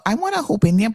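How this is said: The name is pronounced in a Spanish way. This is how Spanish speakers would say it. "that would be the Spanish people"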